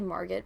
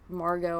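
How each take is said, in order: First: The final T sound is pronounced. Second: The final T sound is silent. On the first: The speaker calls it wrong. "I always say Margot" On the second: The speaker calls it right. "but it's Margot"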